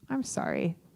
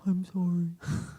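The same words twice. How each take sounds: First: The apology sounds happy and smiling. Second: The apology sounds serious and regretful. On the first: The speaker calls it wrong. "you can't say it with that much like happy face and smile" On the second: The speaker calls it right. "There you go"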